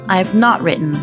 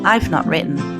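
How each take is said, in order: First: I and have are said as two full words. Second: I and have are joined into one syllable.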